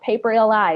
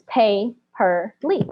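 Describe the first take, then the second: First: The name ends with the letters L, I spelled out. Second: The name ends with a single syllable, lee. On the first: The speaker calls it wrong. "I used to just screw this name up" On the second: The speaker calls it right. "but it's Pay per Lee, like pay per view"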